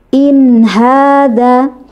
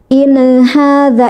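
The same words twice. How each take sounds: First: The n is held smoothly into the h. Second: The n bounces off with an extra vowel. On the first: The speaker calls it right. "Yang benar adalah" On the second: The speaker calls it wrong. "yang salah ya, ... jadi ada e-nya"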